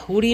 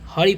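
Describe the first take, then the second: First: The first vowel is an 'oo' sound. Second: The first vowel is an 'uh' sound. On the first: The speaker calls it wrong. "हुरी नहीं" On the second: The speaker calls it right. "हरी पढ़ेंगे"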